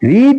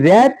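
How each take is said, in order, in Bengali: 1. স্বরটা দীর্ঘ, 'reed'-এর মতো। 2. স্বরটা হ্রস্ব, 'red'-এর মতো। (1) "প্রেজেন্ট ফর্মে যখন আর ই এডি রিড এটা উচ্চারণ করব এইভাবে রিড" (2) "ফার্স্ট পার্টিসিপল ফর্ম উচ্চারণটা হবে রেড"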